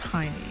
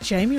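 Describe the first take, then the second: First: The name begins with an H sound. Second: The name begins with a J sound.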